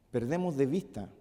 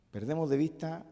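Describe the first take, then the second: No difference in how they are said.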